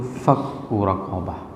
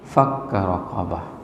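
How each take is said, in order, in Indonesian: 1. Kata pertama berakhir dengan vokal 'u'. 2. Kata pertama berakhir dengan vokal 'a'. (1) "qiraat Nafi itu dibacakan dengan dhammahnya" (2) "Kalau qiraat Kasai"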